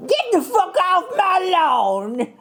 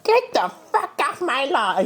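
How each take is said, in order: First: High slow Southern granny voice. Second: High crotchety granny voice. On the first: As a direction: drawl it like a Southern grandma. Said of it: "That's Southern". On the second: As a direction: squawk it like a cranky old granny. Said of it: "give the people your best granny voice". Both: Pretend.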